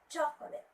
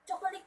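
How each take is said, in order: First: The stress is on the first syllable. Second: The stress is not on the first syllable. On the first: The speaker calls it right. "the stress should be at the first syllable" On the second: The speaker calls it wrong. "which is wrong"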